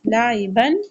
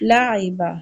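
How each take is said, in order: First: The word ends with an n sound. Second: The word ends with a long a vowel. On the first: The reader continues without stopping. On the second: The reader stops on this word.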